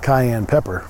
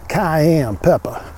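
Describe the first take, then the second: First: It is said in a plain accent. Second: It is said in a put-on Cajun accent.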